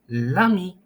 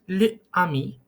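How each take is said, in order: First: The article's vowel is dropped and joined to 'ami'. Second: The article's vowel is said separately before 'ami'. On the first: The speaker calls it right. "le ami will become l'ami" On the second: The speaker calls it wrong. "doesn't sound good"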